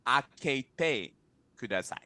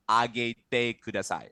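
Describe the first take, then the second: First: "Akete" with a crisp k; careful, separated "Akete", then "kudasai"; intended pronunciation. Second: "Agete" with a voiced hard g; mistaken pronunciation. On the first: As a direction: say "Akete" with an unvoiced k, not g. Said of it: "But what I meant was". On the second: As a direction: say "Agete" with a g where the k belongs. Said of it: "Like, I said". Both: Shown as a demonstration.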